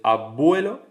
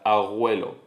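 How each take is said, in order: First: The consonant is made with the lips. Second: The consonant is made at the back of the mouth. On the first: "ves que se pronuncia entre los labios" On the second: "se velariza, se va hacia atrás"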